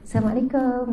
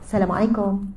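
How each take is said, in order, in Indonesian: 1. Sapaan ini terdengar menggoda dan genit. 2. Sapaan ini terdengar formal dan netral. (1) "Bukan senyum menggoda" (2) "Yang formal lah"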